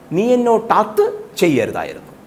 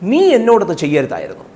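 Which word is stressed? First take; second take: അത്; നീ. First: The stress is on അത്. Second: The stress is on നീ.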